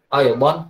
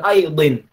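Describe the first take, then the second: First: The word ends with the vowel a. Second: The word ends with the vowel i. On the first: The speaker calls it right. "fathatain aidon" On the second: The speaker calls it wrong. "bukan aidin"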